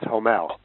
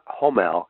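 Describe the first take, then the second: First: The stress is on the second syllable. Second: The stress is on the first syllable. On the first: The speaker calls it right. "the stress is on the second syllable" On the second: The speaker calls it wrong. "So it's not Homel"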